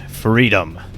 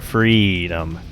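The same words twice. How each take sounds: First: The E vowel is held short. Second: The E vowel is held longer.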